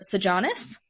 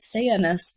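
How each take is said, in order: First: The middle consonant is a hard J sound. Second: The middle consonant is a Y sound. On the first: "A lot of people use" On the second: "I will be pronouncing it"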